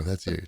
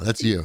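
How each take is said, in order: First: Softer, lower That's you muttered; a soft low jab; quieter repeat. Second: Said in the usual way. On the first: Shown as a demonstration. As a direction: drop it down, pointed.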